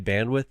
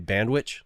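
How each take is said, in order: First: The word ends with a 'th' sound. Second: The word ends with a 'ch' sound. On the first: This is the usual pronunciation. "They don't say bandwidth" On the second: This imitates how others pronounce it. "they say bandwich, like it's a sandwich"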